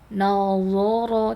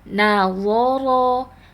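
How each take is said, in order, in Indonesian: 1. Suku kata pertama 'na' terdengar berat dan tebal. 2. Suku kata pertama 'na' terdengar ringan dan tipis. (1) "jangan nazoro" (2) "tapi nazoro"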